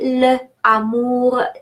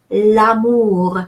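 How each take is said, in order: First: The article is a separate syllable before amour. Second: The article joins amour as one word. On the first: The speaker calls it wrong. "Please don't say le amour" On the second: The speaker calls it right. "be pronounced like one"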